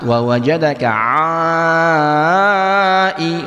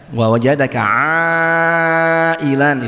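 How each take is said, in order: First: The long vowel is held for five beats. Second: The long vowel is held for four beats. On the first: "lima ya, pakai yang lima ya" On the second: "itu empat"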